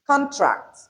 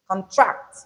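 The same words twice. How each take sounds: First: CONtract, first syllable pitched high, then falling; noun stress on first syllable. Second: ConTRACT, weak first syllable, rising onto the second; verb stress on second syllable. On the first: Teacher listing naming words, first syllable stressed in contract. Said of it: "the first syllable of each". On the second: Teacher reading out the verbs, second syllable stressed in contract. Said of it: "the stress is on the second". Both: Shown as a demonstration.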